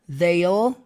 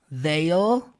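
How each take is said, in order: No difference in how they are said.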